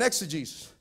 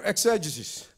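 First: "exegesis" stressed on GEE, ex-uh-JEE-sis; alternative pronunciation. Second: "exegesis" stressed on the second syllable, ex-EJ-uh-sis; alternative pronunciation. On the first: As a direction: say "exegesis" with a long ee in the third syllable. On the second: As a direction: say "exegesis" with a short, unstressed third syllable. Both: Shown as a demonstration. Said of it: "or exegesis".

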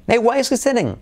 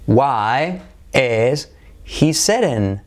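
First: "Hey, why is he sitting?" pitched high with a lilting "Hey"; a bright sing-song question; rising hey intonation. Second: "Why is he sitting?" spoken slowly, word by word; slow model question. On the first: Teacher modelling a lively question for students, high and sing-song. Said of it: "Entonación". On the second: Teacher modelling the question slowly for students. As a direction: stretch the question out for learners. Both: Shown as a demonstration.

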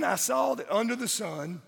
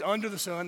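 First: Said in the usual way. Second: "under the sun" set apart, UNDER leaned on, falling tune; stress on under the sun. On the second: Shown as a demonstration. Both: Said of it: "that's an important phrase".

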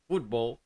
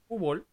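First: "fútbol" with the t clearly sounded; careful English-style pronunciation. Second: "fútbol" with the t dropped, like "fúbol"; local Dominican pronunciation. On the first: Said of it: "te van a decir". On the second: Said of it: "adoptar la forma que ellos quieren". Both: Shown as a demonstration.

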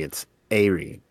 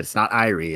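First: "Aerie" starting with an air sound, slower; corrected pronunciation. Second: "Irie" starting with an eye sound; wrong pronunciation. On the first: Retelling a listener's correction, "Aerie" said slowly with air. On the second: Retelling a listener's correction, the wrong "Irie" said with eye. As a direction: say "Irie" with a long i up front. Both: Retold or imitated. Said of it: "corrected me".

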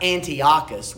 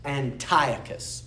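First: Antiochus as it looks, an-tee-OCK-us; "Antiochus" the English way, punched louder; English pronunciation. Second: Antiochus slowly, as an-TIE-uh-kus; slow Greek-way Antiochus, accent on TIE; Greek pronunciation. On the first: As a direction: read Antiochus by its spelling, with Antioch inside it. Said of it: "not the English way. It looks like". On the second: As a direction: stress the second syllable of Antiochus, said "TIE". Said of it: "coming from the Greek part, it's". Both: Shown as a demonstration.

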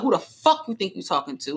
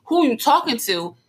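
First: Emphasis on "the fuck" in the question; emphatic challenge. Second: Higher, unemphatic question; playful-sounding challenge. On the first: Girlfriend making sure he knows she's upset, emphatic "fuck". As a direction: lean on "fuck" to show you mean it. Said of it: "add the emphasis of". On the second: Girlfriend showing what he takes as a joke, playful. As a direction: ask it as if only playing. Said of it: "I'm playing". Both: Shown as a demonstration.

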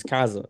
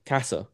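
First: "casa" with a buzzed z in the middle; read English-style. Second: "casa" with a hissed s in the middle, softer; native pronunciation. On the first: Learner showing how house is written, "casa" with a z sound. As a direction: say "casa" as an English reader would, with a z. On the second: Learner contrasting the two readings, "casa" with an s sound. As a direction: say "casa" with a crisp s, not z. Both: Shown as a demonstration. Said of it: "you have to say it how they say it".

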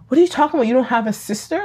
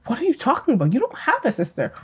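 First: Lightly voiced questioning mother, pitch rising at the end; retold baffled mother. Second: Softer, higher imitation of a sincerely puzzled mother; retold genuine bafflement. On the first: Mother answers daughter's talk of a sister, retold bafflement. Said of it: "and the mother goes". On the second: Mother genuinely tells daughter she has no sister, soft retold puzzlement. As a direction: quote the mother as if she truly means it. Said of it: "Like, genuinely was like".

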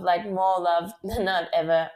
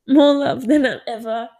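First: Said in the usual way. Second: "More love" pushed out louder and higher through tears; laughing as the tears start; choked up but laughing; tearful laugh. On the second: Real, not acted. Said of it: "oh my God, I'm gonna cry".

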